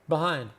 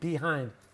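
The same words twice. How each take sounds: First: The sounds are relaxed with little mouth movement. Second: Every sound is clearly and carefully articulated. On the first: The speaker calls it right. "We don't move our mouths a lot" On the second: The speaker calls it wrong. "that's perfect pronunciation"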